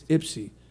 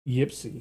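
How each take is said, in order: First: The word begins with a plain vowel sound. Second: The word begins with a 'y' sound. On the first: The speaker calls it right. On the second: The speaker calls it wrong.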